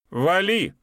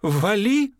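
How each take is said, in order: First: Loud high yell of get lost; shouting. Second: Higher, louder, rising yell; repeated, escalating angry shout. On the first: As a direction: bark it out, raised and angry. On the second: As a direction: throw the yell even harder. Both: A narrator's reading. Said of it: "крикнул Эстом".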